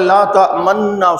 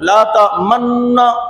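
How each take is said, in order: First: The vowel is said with unrounded lips. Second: The vowel is said with rounded lips. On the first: "बच्चा पढ़ता है" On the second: "होंठ गोल कर"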